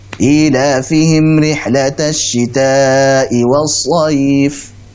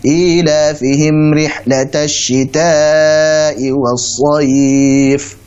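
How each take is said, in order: First: The final vowel is held for two counts. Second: The final vowel is held for four counts. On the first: "Kalau dua, dua terus" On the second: "Jadi kalau empat harakat"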